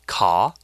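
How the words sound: It is said in a British accent. "in British English, C-A-R is pronounced car"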